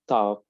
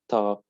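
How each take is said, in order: First: It is said in an American accent. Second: The same.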